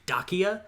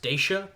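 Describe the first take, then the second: First: The name is said the ancient way. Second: The name is said the common modern way. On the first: "if you're pronouncing it as they would have at the time" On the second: "I've heard it pronounced Dacia. That's how I would pronounce it"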